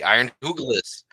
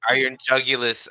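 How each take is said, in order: First: The second word begins with an H sound. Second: The second word begins with a J sound. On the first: "I know that's not the right way to pronounce it. I just like pronouncing that" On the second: "I pronounce Iron, Iron Jugulus as Iron Hoogalis"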